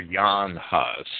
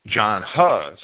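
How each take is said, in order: First: Jan Hus with Jan said "Yahn"; native name form. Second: John Huss with English j in John; English name form. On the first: Lecturer giving reformer's native name, Jan Hus pronounced Yahn Hus. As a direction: say Jan Hus starting on a y sound. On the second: Lecturer naming another reformer, John Huss in English pronunciation. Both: Shown as a demonstration. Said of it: "or Jan Hus".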